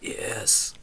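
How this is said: It is said in a weak, croaky voice.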